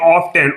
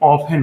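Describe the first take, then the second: First: The word is said with a t sound. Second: The word is said without a t sound. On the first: "तो लिखा ऑफ्टेन जाता है" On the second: "इसका pronunciation जो accent होता है वो हमेशा ऑफन होता है"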